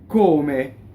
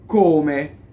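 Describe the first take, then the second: The two takes are said the same way.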